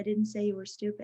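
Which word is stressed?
none. It is flat, with no word stressed. The intended meaning is unclear. "When they're monotone"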